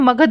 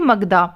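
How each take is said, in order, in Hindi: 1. शब्द अंतिम व्यंजन ध्वनि पर समाप्त होता है। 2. शब्द के अंत में एक जोड़ा गया 'a' स्वर है। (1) "यहाँ पर हम मगध बोलेंगे" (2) "ना कि मगधा"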